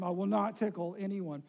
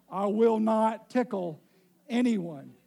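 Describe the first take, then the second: First: Said in the usual way. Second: Loud, slow, every word stressed; insisting loudly he will not tickle anyone; very clear, emphatic. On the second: Real, not acted. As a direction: spell it out firmly, word by word. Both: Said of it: "I need to be very clear".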